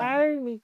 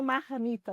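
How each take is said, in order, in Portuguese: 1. O R é forte, como no interior de São Paulo. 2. O R é fraco, sem aquele som forte do interior. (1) "sotaque já é de paulista no interior" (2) "eu não falo marmita"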